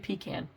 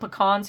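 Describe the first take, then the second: First: Pecan is said the East Coast way. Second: Pecan is said the local Oklahoma way. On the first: "East Coast people say pecan" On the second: "We call it pecans here"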